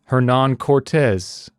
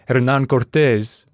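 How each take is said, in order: First: The name is said with an English accent. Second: The name is said with a Spanish accent. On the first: It sounds careless. "but I also feel like an ass when I say Hernán Cortés" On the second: It sounds out of place beside the rest. "I feel like an ass saying Hernán Cortés when the rest of it sounds like a Canadian schmuck"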